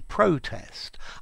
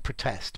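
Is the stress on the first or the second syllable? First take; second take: first; second. First: The stress falls on the first syllable. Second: The stress falls on the second syllable. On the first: It is a noun: an act of objecting. "but a protest" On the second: It is a verb: to object to something. "Most commonly unstressed protest, to protest"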